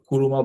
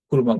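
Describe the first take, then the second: First: The middle u vowel is fully pronounced. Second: The middle u vowel is nearly dropped. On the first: The speaker calls it wrong. "যদিও কুরুমা বলে না" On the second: The speaker calls it right. "কুরমা বলে"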